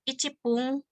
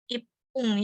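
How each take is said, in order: First: The first part is a full syllable, ichi. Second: The first part shrinks into a doubled consonant. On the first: The speaker calls it wrong. "bukan icipung" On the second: The speaker calls it right. "tapi jadi ipung"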